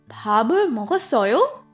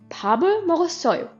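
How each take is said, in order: First: The voice rises at the end. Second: The voice falls at the end. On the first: It asks whether the listener ate. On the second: It states that the speaker ate.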